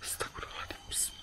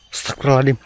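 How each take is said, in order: First: Frightened whisper under breath; scared whisper. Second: Startled exclamation. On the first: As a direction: breathe it out in fear. Hears a strange sound. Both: Real, not acted.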